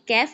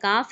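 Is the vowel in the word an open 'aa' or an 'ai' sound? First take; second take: ai; aa. First: The vowel is a narrower 'ai' sound. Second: The vowel is an open 'aa' sound. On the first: The speaker calls it wrong. "काफ है उसको कैफ पढ़ देते हैं। ये कैफ नहीं है" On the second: The speaker calls it right. "ये काफ है"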